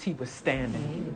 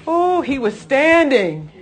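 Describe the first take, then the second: First: Low, slow and hushed; lowered voice, unhurried; understated statement. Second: High, loud, drawn-out wonder; exultant exclamation. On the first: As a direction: let it land quietly and slowly. First statement before exclaimed repeat. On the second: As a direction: marvel aloud, slowly and loudly. Preacher marvels, repeating the phrase. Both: Real, not acted.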